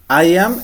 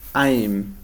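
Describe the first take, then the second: First: Two separate words, with a full vowel in am. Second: One syllable, with an m sound added to I. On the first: "es cuando está separado" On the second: "pero le agrego el sonido M"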